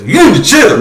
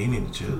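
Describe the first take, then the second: First: It is said in a loud, angry tone. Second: It is said in a relaxed, friendly tone. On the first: The message is a hostile demand. "you yelling from behind the phone" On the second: The message is a friendly suggestion. "I might have said it in my head like, hey"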